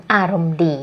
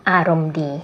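The two takes are said the same way.

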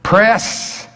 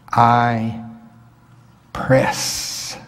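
First: "Press" called out high and loud; a loud, rising preacher's "Press"; shouted press. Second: Hushed, breathy stress on "press", drawn out; a hushed, deliberate "press"; emphasized press. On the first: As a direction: punch "Press" up high like a rallying cry. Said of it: "I wanna press". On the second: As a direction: lean into "press" in a near whisper. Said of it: "I'm emphasizing that word on purpose". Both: Shown as a demonstration.

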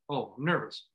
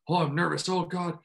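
First: Note the nerves without reacting; calm recognition. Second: Mildly worried self-talk, slightly raised pitch; anxious overthinking. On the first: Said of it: "Instead of just being like". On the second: Acted. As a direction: act out a touch of pre-game panic. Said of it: "overthinking that and being like".

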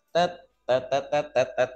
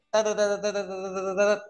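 First: Separate, spaced-out syllables dropping in pitch; suddenly slowed down. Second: Rapid-fire run of identical syllables; quick, higher-pitched demo of speedy speech; fast talking. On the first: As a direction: let the syllables plod one by one. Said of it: "terus tiba-tiba". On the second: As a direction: rattle the syllables off without a gap. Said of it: "ngomongnya bisa cepet". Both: Shown as a demonstration.

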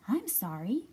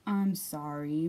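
First: Lightly voiced rabbit, quicker apology; a hint of twittery rabbit; twittering Rabbit. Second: Low, slow apology; drawn-out, lower mole voice; mumbling Mole. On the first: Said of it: "twittered Rabbit". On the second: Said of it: "mumbled Mole". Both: A narrator's reading.

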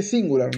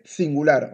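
First: "singular" said the English way; English pronunciation. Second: "singular" said the Spanish way; Spanish pronunciation. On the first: Teacher contrasting English for a student, English pronunciation. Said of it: "en inglés se dice singular". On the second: Teacher showing a student the word, Spanish pronunciation. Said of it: "en español se dice singular". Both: Shown as a demonstration.

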